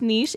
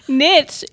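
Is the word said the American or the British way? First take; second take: British; American. First: It is said with the British pronunciation. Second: It is said with the American pronunciation. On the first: "more likely to be pronounced niche in UK" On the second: "typically pronounced niche in the U.S"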